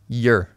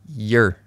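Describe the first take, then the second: First: The word has a reduced, weak vowel. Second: The same.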